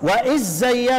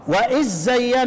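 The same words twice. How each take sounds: First: The dh sound merges into the following z. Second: The dh sound merges into the following z.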